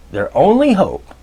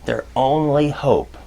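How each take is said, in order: First: "only" pushed higher and louder than the rest; emphatic repeat. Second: Said in the usual way. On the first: Shown as a demonstration. Lecturer stressing the manager's one hope, emphatic. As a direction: hit "only" hard the second time round. Repeats phrase, second time stronger.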